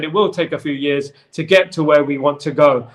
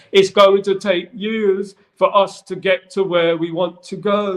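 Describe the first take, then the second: First: Said in the usual way. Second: Slow, higher mock-Hobbit accent; odd storybook accent, pitched up and slow; put-on Hobbit-like accent. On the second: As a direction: quote him in a drawn-out, made-up Hobbit accent. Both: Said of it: "Not necessarily in that accent".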